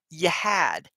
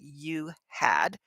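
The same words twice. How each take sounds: First: The h in had is barely heard. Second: The h in had is fully pronounced. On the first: The speaker calls it right. "We say you had. you can hear a little H in there" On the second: The speaker calls it wrong. "We don't say you had"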